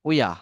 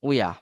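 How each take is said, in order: The two takes are said the same way.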